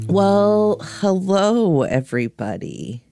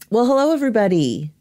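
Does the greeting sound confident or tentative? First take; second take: tentative; confident. First: The greeting sounds hesitant and tentative. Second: The greeting sounds sure and confident.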